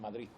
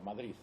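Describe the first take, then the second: First: Madrid ends with a t sound. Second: Madrid ends with a soft th-like sound.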